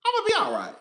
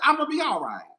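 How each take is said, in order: First: High, bouncy self-reassurance; high sing-song reassurance. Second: Said in the usual way. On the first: Real, not acted. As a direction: jump way higher, sing-song. Repeats reassurance twice.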